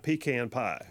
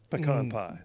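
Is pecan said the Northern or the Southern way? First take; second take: Northern; Southern. First: Pecan is said with a Northern pronunciation. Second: Pecan is said with a Southern pronunciation. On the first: The speaker calls it wrong. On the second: The speaker calls it right.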